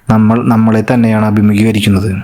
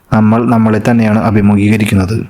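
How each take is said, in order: Both takes have the same delivery.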